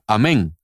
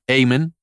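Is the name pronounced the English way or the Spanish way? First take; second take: Spanish; English. First: It is said with a Spanish pronunciation. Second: It is said with an English pronunciation. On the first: "en español se pronunciaría amén" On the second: "En inglés se pronuncia Amen"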